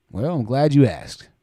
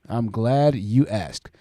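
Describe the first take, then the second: First: Said in the usual way. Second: Very slow, lower repeat; slow drawn-out. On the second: Real, not acted. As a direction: stretch it out slowly, savoring it.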